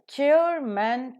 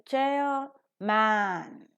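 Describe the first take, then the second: First: CHAIRMAN as one word, weaker second syllable; pronounced together. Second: CHAIRMAN as two slow, separate full words; wrongly separated. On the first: Teacher shows the compound pronounced together, joined up. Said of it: "if you pronounce chairman together". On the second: Teacher shows how we don't pronounce it, split in two. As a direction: stretch both CHAIR and MAN in CHAIRMAN equally. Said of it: "we don't pronounce it as chairman". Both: Shown as a demonstration.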